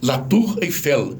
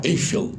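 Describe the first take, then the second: First: La Tour Eiffel said slowly in French, stress on the last syllable; French pronunciation. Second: Eiffel stressed on the first syllable, Brazilian style; Brazilian mispronunciation. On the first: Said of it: "É oxítona". (La Tour Eiffel em francês, devagar, acento no fim) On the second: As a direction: say Eiffel as EI-fel. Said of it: "Dois erros". (Eiffel com acento errado na primeira sílaba) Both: Shown as a demonstration.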